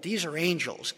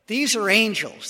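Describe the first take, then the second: First: Said in the usual way. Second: These punched higher and louder; emphatic. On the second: Shown as a demonstration. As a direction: lean hard on These. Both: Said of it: "This isn't even the Lord".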